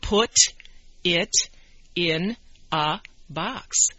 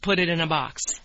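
First: Each word is said separately and distinctly. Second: The words run together quickly with linked sounds. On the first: "they can read it" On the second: "when we're talking fast, that's not how we say it, right? We say"

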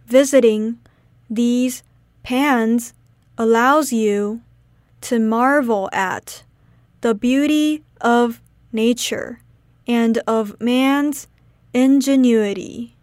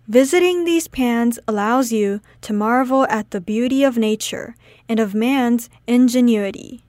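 First: It is said slowly. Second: It is said at normal speed.

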